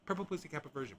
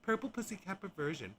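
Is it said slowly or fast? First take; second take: fast; slowly. First: It is said fast. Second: It is said slowly.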